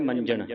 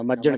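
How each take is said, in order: First: "ਮੰਜਣ" with n before j; congregation's mispronunciation. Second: "ਮੱਜਣ" with doubled j and no n; tight double consonant. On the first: Retold or imitated. Teacher cites what congregations read, "ਮੰਜਣ" with an n. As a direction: imitate the misreading "ਮੰਜਣ", as manjan. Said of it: "ਸੰਗਤਾਂ ਪੜ੍ਹ ਜਾਂਦੀਆਂ ਮੰਜਣ". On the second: Shown as a demonstration. Teacher corrects a student's repeat, "ਮੱਜਣ" with tight jj. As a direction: hold the jj in "ਮੱਜਣ". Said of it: "ਨਾ, ਮੱਜਣ ਕਹਿਣਾ".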